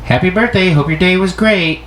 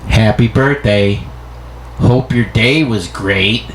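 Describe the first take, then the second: First: High, bright cheerful greeting; upbeat birthday wish; friendly reading. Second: Slow, flat sarcastic birthday wish; grudging, drawn-out greeting; negative tone. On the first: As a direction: chirp the wish sweetly. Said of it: "they're gonna read it as". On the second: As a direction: read it as if resentful. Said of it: "that negative kind of tone". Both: Shown as a demonstration.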